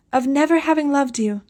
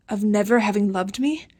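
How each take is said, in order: First: Higher, solemn voice on the edge; solemn, trembling. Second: Stunned disbelief. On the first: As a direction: announce it gravely, trembling. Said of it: "in a solemn, trembling voice". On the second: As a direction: repeat it, unable to believe. Daniel repeats in disbelief. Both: A narrator's reading.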